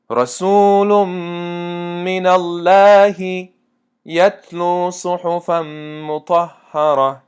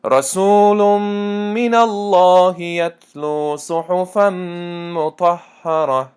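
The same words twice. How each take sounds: First: Chanted slowly with the lam of الله in "من الله" pronounced thin and light; deliberately wrong thin lam. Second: Chanted slowly with a full, heavy lam in "الله" of "من الله"; correct heavy lam. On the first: Teacher deliberately misreads to test students, thin lam of الله. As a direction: recite "رسول من الله" with a thin lam in الله to trick the class. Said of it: "لام لفظ الله من تنک خوندم". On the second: Teacher gives the corrected recitation, heavy lam of الله. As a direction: recite "رسول من الله" with the lam of الله thick and emphatic. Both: Shown as a demonstration.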